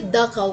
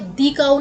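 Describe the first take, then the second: First: 'The' is said with a short uh vowel. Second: 'The' is said with a long ee vowel. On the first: The speaker calls it right. "द काऊ बोलेंगे" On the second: The speaker calls it wrong. "दी काऊ नहीं बोलेंगे"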